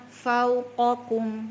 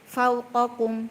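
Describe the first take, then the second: First: The waw sound flows on briefly before continuing. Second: The waw sound is cut short and rushed. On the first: The speaker calls it right. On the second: The speaker calls it wrong. "kalau gini bacanya"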